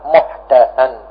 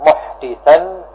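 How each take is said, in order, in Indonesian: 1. Vokal setelah d adalah 'a'. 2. Vokal setelah d adalah 'i'.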